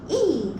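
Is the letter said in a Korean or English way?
English. It is said with English stress. "영어는 E"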